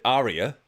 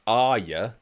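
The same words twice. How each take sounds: First: "Arya" said as AR-ee-a, three syllables; "Arya" as the dog's former owners said it; previous family's pronunciation. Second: "Arya" said AR-ya, two syllables; "Arya" the correct Game of Thrones way; Game of Thrones pronunciation. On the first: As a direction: say "Arya" the way the old family did, AR-ee-a. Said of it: "pronounced it Arya". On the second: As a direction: say "Arya" like Arya Stark, AR-ya. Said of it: "it's pronounced Arya". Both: Shown as a demonstration.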